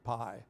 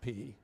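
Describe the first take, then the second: First: The vowel sounds like the word 'eye'. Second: The vowel sounds like the 'ee' in 'see'. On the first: This is not how Greek speakers say the letter. The speaker calls it wrong. "not pi" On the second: This is how Greek speakers say the letter. The speaker calls it right. "in Greek, you pronounce it P"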